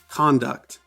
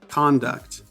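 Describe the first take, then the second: First: The stress is on the first syllable. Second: The stress is on the first syllable.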